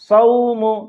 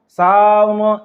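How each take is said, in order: First: The diphthong is short, soft and quick. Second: The diphthong is changed from the short soft form. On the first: The speaker calls it right. "नर्म आवाज के साथ जल्दी से पढ़ना है" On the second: The speaker calls it wrong. "इस तरह से नहीं पढ़ना है"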